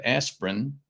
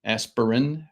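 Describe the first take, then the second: First: "aspirin" said in two syllables, as ASP-rin; two-syllable pronunciation. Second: "aspirin" said in three syllables, as ASS-per-in; three-syllable pronunciation. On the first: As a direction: run "aspirin" together, dropping the middle vowel. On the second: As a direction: sound out the middle vowel in "aspirin". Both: Shown as a demonstration. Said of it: "depending on how you pronounce it".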